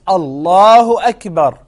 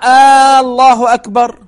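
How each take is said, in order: First: It is said as a plain statement. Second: It is said as a question. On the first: It declares that God is great. The speaker calls it right. "So it's Allahu Akbar" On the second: It asks whether God is great. The speaker calls it wrong. "If you say Allahu Akbar, you are actually questioning"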